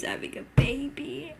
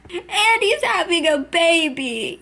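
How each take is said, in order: First: Breathless disbelieving whisper. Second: Slow, loud and high announcement; stunned exclaim. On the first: Viewer repeats the twist to herself, whispering. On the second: Viewer shouts the twist at the screen, stunned. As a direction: blurt it out, thunderstruck. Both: Real, not acted.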